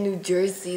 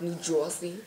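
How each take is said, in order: First: Said in the usual way. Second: New Jersey accent, "Jersey" said as "Joisey"; softer, lower New Jersey twang on "Jersey". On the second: Shown as a demonstration. Showing friends that New Jersey has an accent, New Jersey accent. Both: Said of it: "they got like an accent".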